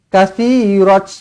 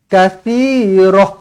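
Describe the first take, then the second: First: The word ends with a t sound. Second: The word ends with an h sound. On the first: The speaker calls it wrong. "Jangan katsirat" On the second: The speaker calls it right. "Macam tu"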